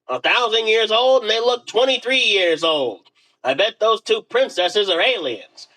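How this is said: It is said in a put-on Dale voice.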